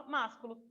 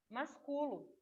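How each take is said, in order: First: Másculo stressed on the first syllable, má. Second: Masculo stressed on cu, not on má; stress moved, masculo. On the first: Teacher gives the accented form to contrast. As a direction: say másculo as MÁS-cu-lo. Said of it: "a gente coloca o acento". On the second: Teacher shows how the word would sound without accent. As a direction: say masculo as mas-CU-lo. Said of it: "Se não tivesse o acento no ma". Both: Shown as a demonstration.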